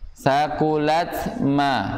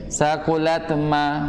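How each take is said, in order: First: It is said at a moderate, even pace. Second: It is said too fast, words rushed together.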